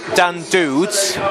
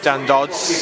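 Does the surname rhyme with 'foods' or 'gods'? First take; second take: foods; gods. First: The surname has an 'oo' vowel, like foods. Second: The surname has a short 'o' vowel, like gods. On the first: The speaker calls it wrong. "We've just had Dan Dudes" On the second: The speaker calls it right. "instead of Dan Dodds"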